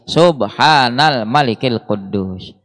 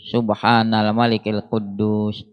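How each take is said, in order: First: It is said a little louder. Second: It is said at normal, softer volume.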